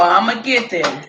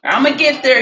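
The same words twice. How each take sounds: First: Said in the usual way. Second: Louder, higher, rallying the audience; I'ma get there, pitched up and pushed louder; hyped promise. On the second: Real, not acted. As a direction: call it out to y'all with a push.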